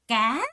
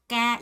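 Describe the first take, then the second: First: The pitch rises toward the end. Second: The pitch stays level throughout. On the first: It means fish. "까 하고 올라갔죠" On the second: It means a bowl. "이 정도 음에서 쭉 가는 거예요"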